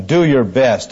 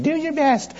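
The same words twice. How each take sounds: First: Said in the usual way. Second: High, soft, sugary teacher voice; sweet patient sunday school. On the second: Shown as a demonstration. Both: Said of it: "Doesn't that sound like a Sunday school teacher?".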